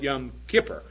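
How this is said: It is said with an English-speaking pronunciation. "We call it Yom Kippur"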